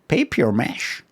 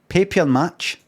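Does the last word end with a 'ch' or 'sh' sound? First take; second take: sh; ch. First: The last word ends with an 'sh' sound. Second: The last word ends with a 'ch' sound. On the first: The speaker calls it wrong. "It's not mash" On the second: The speaker calls it right. "Match. Just match"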